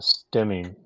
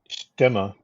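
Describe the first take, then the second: First: The name is said with non-German pronunciation. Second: The name is said with German pronunciation. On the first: "even the factory calls the airplane a Stemming nowadays" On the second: "the proper pronunciation of S T E M M E in German is Stimme"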